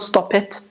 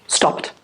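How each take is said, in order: First: The ending is said as an extra syllable. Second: The ending is a bare t sound, one syllable. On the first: The speaker calls it wrong. "not stop it" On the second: The speaker calls it right. "We do not add another syllable"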